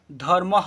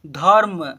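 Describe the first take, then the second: First: धर्म said as dhar-maha, with aha at the end; visarga ending. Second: Said in the usual way. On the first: Shown as a demonstration. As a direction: add a voiced h echo to the end of धर्म. (धर्म के अंत में अह का उच्चारण) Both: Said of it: "अह है last में".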